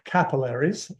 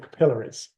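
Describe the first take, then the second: First: It is said in the American pronunciation. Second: It is said in a non-American pronunciation.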